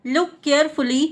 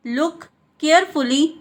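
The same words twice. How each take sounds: First: Said in the usual way. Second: "look", pause, "carefully"; word by word. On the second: Shown as a demonstration. Teacher repeats for learners, word by word.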